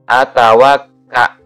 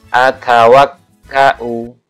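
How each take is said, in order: First: The word is cut off without a final vowel. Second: The word ends with a glottal stop and vowel. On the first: The reading stops at this word. "dibaca waqaf" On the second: The reading continues without stopping. "Itu kalau e, wasol"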